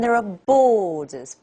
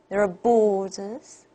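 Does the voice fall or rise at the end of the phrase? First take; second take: fall; rise. First: The voice falls at the end. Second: The voice rises slightly at the end. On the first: "borders for" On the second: "a little rise here"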